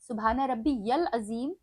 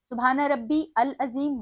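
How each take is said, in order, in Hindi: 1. य की आवाज़ 'al' से जुड़ जाती है। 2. 'al' से पहले य की आवाज़ नहीं है। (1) "सही" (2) "गलत"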